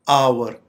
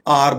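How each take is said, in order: First: The vowel glides like 'ow-er'. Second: The vowel is a plain 'ah' sound. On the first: The speaker calls it right. "इसकी correct pronunciation है आवर" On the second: The speaker calls it wrong. "आम तौर पे इसे आर बोला जाता है, जो कि गलत प्रोनाउंसिएशन है"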